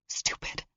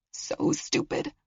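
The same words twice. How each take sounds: First: Barely voiced self-scold; whispered. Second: Slower, higher whispered self-blame. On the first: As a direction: hiss it to herself. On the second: Acted. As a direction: drag it out under breath.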